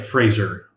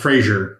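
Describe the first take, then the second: First: The name rhymes with razor. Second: The name does not rhyme with razor. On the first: The speaker calls it right. "it's like Fraser" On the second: The speaker calls it wrong. "it's not Frazier"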